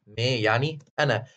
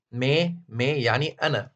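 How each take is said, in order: First: Said in the usual way. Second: مي said slowly and carefully, twice, falling; slow teaching demo. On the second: Shown as a demonstration. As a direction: spell out مي slowly for the class. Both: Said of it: "أول ضمير منهم اللي هو مي".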